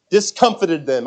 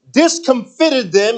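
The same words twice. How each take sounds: First: "Discomfited" accented early, on COM; "Discomfited" with the second syllable stressed. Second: "discomfited" drawn out slowly with stress on FIT; slow "discomfited", accented late on FIT. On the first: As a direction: say dis-COM-fit-ed, with FIT left weak. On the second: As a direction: say dis-com-FIT-ed, leaning on the third syllable. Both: Real, not acted. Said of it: "where you put the accent".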